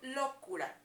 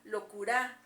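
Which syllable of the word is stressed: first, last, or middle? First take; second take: first; last. First: The stress is on the first syllable. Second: The stress is on the last syllable. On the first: "Si creemos que está en la O, locura. Lo, enfaticemos el sonido" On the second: "En la A, locura, pues tampoco suena de manera correcta"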